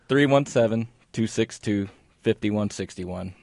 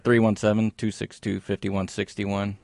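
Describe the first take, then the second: First: The number is said slowly. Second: The number is said fast.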